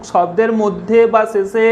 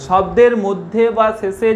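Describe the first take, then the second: No difference in how they are said.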